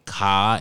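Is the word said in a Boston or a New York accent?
Boston. It is said in a Boston accent, without the r.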